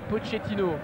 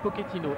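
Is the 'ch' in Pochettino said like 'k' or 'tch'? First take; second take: tch; k. First: The ch is said as a tch sound. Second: The ch is said as a k sound. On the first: It follows the Spanish reading of the name. "en espagnol, euh, le C H E se dit Che" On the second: It follows the Italian reading of the name. "une espèce de domination des italianophiles en France"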